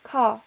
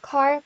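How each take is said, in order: First: The final r sound is dropped. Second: The final r sound is pronounced. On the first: "영국 영어에서 ... r 발음이 거의 나지 않습니다" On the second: "미국 영어에서"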